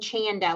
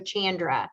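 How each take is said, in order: First: The name is said without an R sound. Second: The name is said with an R sound. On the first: The speaker calls it right. "you say my name Chanda, like panda" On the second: The speaker calls it wrong. "Lots of people want it to have an R too"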